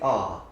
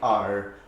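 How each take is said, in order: First: The R sound is dropped. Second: The R sound is clearly pronounced. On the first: This is the speaker's own non-rhotic English way. "I say R" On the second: This is the rhotic way the speaker does not use. "I don't say R"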